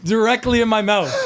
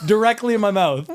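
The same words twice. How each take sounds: First: High, loud, breaking into laughter; can barely get it out through laughs; squealing with real laughter; laughing. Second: Repeating it high and loud through laughter; real giggling disbelief; still laughing. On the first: Laughing at an embarrassing fart story. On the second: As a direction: squeal the punchline again, laughing hard. Repeats punchline while laughing. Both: Real, not acted.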